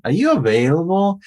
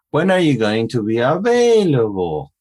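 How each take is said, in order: First: High question, AVAILABLE climbing to the end; keeps going up. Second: Arch the pitch over AVAILABLE and drop it; goes up and down. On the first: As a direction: keep the pitch rising through AVAILABLE, no fall. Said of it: "It just keeps going up". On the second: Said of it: "it just goes up and down". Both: Shown as a demonstration.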